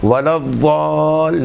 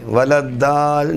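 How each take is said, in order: First: الضال said with a heavy, rounded d-like sound, drawn out; wrong heavy ضاد in الضال, held long; mispronounced ضاد. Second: الدال said with a plain, thin d; wrong thin d in الدال, slightly drawn out; thin dal mispronunciation. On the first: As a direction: stretch الضال slowly with a full, dark consonant. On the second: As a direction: say الدال slowly with a light dental d. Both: Shown as a demonstration. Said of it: "باریک دال یا پر دال کے مانند نہیں ہے".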